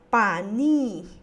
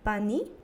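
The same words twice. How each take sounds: First: The final vowel is lengthened. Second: The final vowel is short. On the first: My sister, said by a man. "cuando yo le duplico la última vocal I" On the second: A man's sister. "lo estoy pronunciando solo con una I"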